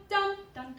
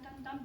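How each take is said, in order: First: "dun, dun" punched high and loud; loud, raised, accented "dun, dun"; accented notes. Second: Said in the usual way. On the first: Shown as a demonstration. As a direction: hit both "dun" syllables as strong accents. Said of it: "notes that have the accents". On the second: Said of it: "play the rest of it".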